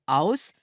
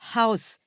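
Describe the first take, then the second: First: The initial h is dropped entirely. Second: The initial h is clearly breathed out. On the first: The speaker calls it wrong. "et non Haus" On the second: The speaker calls it right. "il faut dire Haus"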